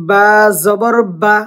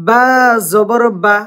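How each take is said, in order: Both takes have the same delivery.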